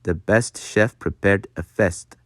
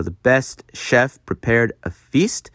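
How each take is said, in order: First: "fest" with the short E of bed; Dutch-style short open E in "prepared" and "fest". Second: Said in the usual way. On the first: Shown as a demonstration. Teacher demonstrating Dutch vowels, short E in "fest". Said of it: "like the short E in bed". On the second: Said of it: "rather than the long A sound".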